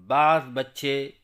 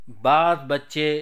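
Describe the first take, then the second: No difference in how they are said.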